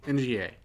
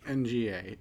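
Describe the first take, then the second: Both takes have the same delivery.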